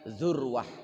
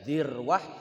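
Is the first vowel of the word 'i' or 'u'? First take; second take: u; i. First: The first syllable has the vowel u. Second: The first syllable has the vowel i. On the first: "bisa dibaca zurwah" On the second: "Bisa dibaca dirwah"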